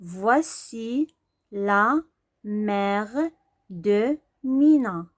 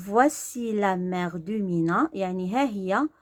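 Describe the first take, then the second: First: فواسي لا ميغ دو مينا read slowly, word by word. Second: Said in the usual way. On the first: Shown as a demonstration. Teacher sounding out فواسي لا ميغ دو مينا slowly. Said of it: "يعني ها هي مينا".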